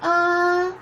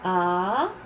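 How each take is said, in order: First: The pitch stays high and level. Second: The pitch rises from mid to high.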